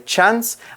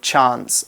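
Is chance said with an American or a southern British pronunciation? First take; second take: American; British. First: Chance is said the usual American way. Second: Chance is said the way some British regions do. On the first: "Normally in the U S and some parts of the U K, they will say chance" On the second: "in other parts of the U K, you'll hear people say chance"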